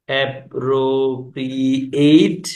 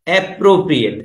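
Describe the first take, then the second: First: "appropriate" very slowly, syllable by syllable; drawn-out syllables. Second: Said in the usual way. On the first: Shown as a demonstration. Teacher spells out the example word, very slow separated syllables. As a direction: stretch out each syllable of "appropriate", rising at the end.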